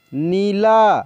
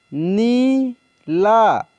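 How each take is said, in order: First: Said in the usual way. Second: Neela drawn out very slowly, sound by sound; slow dictation of Neela; slow spelled-out reading. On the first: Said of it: "teacher says word normally". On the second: Shown as a demonstration. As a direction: stretch Neela for the learners. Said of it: "teacher reads word slowly".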